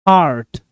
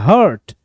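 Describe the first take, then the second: First: The vowel is stretched out long. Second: The vowel is short and unstretched. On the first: The speaker calls it right. "थोड़ा खींचेंगे" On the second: The speaker calls it wrong. "Normally लोग इसको pronounce करते हैं"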